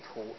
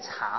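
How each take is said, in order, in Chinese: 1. 这个音节读 tu。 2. 这个音节读 cha。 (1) "这念图" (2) "不念茶哦"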